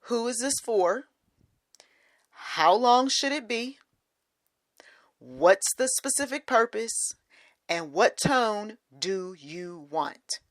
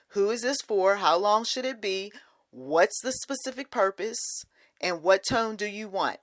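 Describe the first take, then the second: First: It is said slowly. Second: It is said at normal speed.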